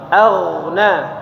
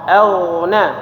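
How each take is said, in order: No difference in how they are said.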